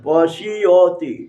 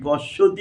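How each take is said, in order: First: A short 'i' and a 'y' glide follow 'sh'. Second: The 'sh' runs straight into 'ti' without a glide. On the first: This is the Sanskrit way of saying it. "সংস্কৃত পশিয়তি রস্যি তালবস্বয় রস্যি অকার উচ্চারণ করে" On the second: This is the Bengali way of saying it. "বাংলা উচ্চারণ করা হয়"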